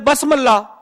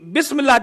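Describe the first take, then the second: First: The first vowel after b is a. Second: The first vowel after b is i. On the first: The speaker calls it wrong. "कोई पढ़ दे बसमल्ला, बसमल्ला भी रोंग" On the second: The speaker calls it right. "हकीकी बिस्मिल्लाह जब तक जेर ना हो"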